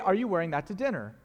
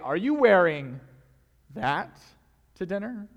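First: It sounds like a plain, neutral question. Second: It sounds critical and disapproving. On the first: It is just a simple question. "Simple, easy question. No strings attached" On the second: The speaker disapproves of the outfit. "if you say it this way"

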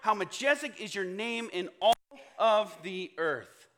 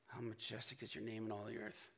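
First: It is said loudly and excitedly. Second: It is said flatly and with boredom.

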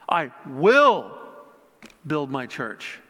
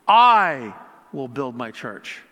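First: The word 'will' is stressed. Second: The word 'I' is stressed. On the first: "putting an emphasis on each word" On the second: "putting an emphasis on each word"

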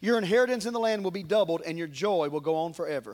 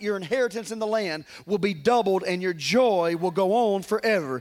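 First: It is read quickly in a plain voice. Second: It is read slowly in a preachy voice.

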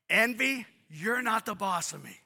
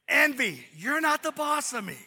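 First: It is said plainly, without extra attitude. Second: It is said with strong, defiant attitude.

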